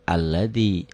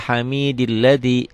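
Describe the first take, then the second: First: The word starts with a clear 'a' sound. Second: The 'a' is silent, joined to the previous word. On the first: The word is read on its own, not joined. "bunyinya jadi a" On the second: The word is joined to the word before it. "Nggak bunyi"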